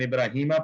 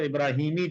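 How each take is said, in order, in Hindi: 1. शब्द 'ah' स्वर से खत्म होता है। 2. शब्द 'ee' स्वर से खत्म होता है। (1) "लेकिन इब्राहीमा पढ़ते हैं" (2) "अला के बाद होना तो इब्राहीमी चाहिए"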